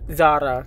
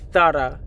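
First: The name is said the American way. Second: The name is said the Spanish way. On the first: The speaker calls it wrong. "not Zara" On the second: The speaker calls it right. "It's pronounced Zara, learn Spanish from Spain"

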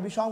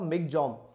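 First: The name ends with a 'chaung' sound. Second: The name ends with a 'gjong' sound. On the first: This is the common way people say it. "We call it Michaung" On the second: This is how it is said in its home country. "the real pronunciation as per Myanmar"

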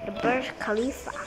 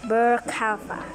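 First: The J sound in Burj is pronounced. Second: The J sound in Burj is left silent. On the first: The speaker calls it right. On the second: The speaker calls it wrong.

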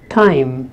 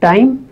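First: The t is said with a puff of air. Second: The t is said without a puff of air. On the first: "here we have a slight touch of H sound. In English, it is time" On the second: "In Indian languages, we don't have that. We say time"

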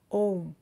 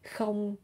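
First: It begins with a vowel and ends in m. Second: It begins with a k sound and ends in ng. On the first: "or ôm" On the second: "You can say không"

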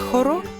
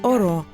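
First: The word begins with an h sound. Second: The word begins directly with a vowel. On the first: This is how it is said elsewhere. "Якщо це «хоро»" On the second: This is how the local dialect says it. "то в нас «оро». ... літери «х» немає взагалі в діалекті"

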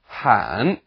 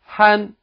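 First: The pitch dips low and then rises. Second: The pitch stays high and level throughout. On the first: "third tone" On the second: "first tone"

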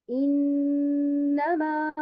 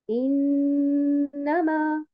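No difference in how they are said.

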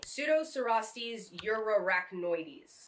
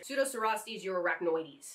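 First: The name is said at a slower pace. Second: The name is said at a faster pace.

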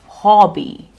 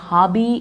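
First: The first vowel is an aw sound. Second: The first vowel is not an aw sound. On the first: The speaker calls it right. "Remember to use the aw sound" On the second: The speaker calls it wrong. "It's not your hobby"

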